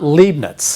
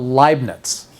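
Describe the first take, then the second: First: The first vowel sounds like 'ee'. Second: The first vowel sounds like 'eye'. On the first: The speaker calls it wrong. "It's not Leibniz" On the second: The speaker calls it right. "This one is called Leibniz"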